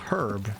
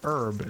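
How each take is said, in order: First: The word starts with an h sound. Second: The word starts without an h sound. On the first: "herb is a British English pronunciation" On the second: "herb is an American pronunciation"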